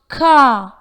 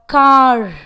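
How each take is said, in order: First: The final R sound is not pronounced. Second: The final R sound is clearly pronounced. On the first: The speaker calls it right. "is pronounced car in British English" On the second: The speaker calls it wrong. "but not car"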